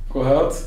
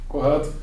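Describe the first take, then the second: The two takes are said the same way.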